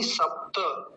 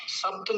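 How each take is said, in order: First: सप्त as sap-ta, final vowel sounded; full त. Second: सप्त as sapt, no final vowel; wrong example: cut सप्त off on t; clipped त. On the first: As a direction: give सप्त a whole ta at the end. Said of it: "त पूरा है". (सप्त में त पूरा) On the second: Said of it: "सप्त नहीं सप्त". (सप्त, गलत आधा त) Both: Shown as a demonstration.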